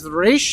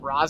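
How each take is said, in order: First: The first word has an 'ee' vowel, like reesh. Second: The first word has an 'ah' vowel, like rahz. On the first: The speaker calls it right. "I'm pretty sure the proper pronunciation is Rish" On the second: The speaker calls it wrong. "a lot of people pronounce it Ra's Al Ghul"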